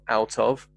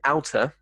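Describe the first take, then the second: First: The two words are said separately and in full. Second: The two words blend into one word with a soft D. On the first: "from out of" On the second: "outer, from out of"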